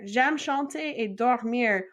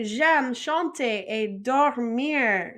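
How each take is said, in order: First: Said in the usual way. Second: Very slow, careful French; slow model. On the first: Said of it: "repeated faster". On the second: Shown as a demonstration. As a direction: model it slowly for repetition. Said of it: "And then we could say".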